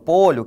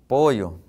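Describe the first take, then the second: First: The middle consonant is a 'ly' sound. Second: The middle consonant is a 'y' sound. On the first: "Exemplo, polho" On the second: "dentro do eísmo aqui, por exemplo, ó, utilizo pollo, né? Pollo com Y"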